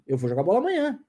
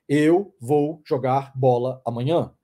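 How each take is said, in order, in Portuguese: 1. As palavras são juntadas rápido, sem pausas. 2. Cada palavra é dita devagar, com pausas entre elas. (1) "A gente fala juntando" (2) "Ninguém fica falando pausadamente as coisas"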